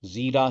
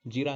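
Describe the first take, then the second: First: जीरा with a long ee; louder जीरा with the ee stretched; long vowel. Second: जीरा with a short i; quick short i in जीरा; short vowel. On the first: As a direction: hold the first vowel of जीरा. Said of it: "जीरा ही आप बोलते हैं". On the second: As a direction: clip the first vowel of जीरा. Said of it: "जीरा नहीं होता". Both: Shown as a demonstration.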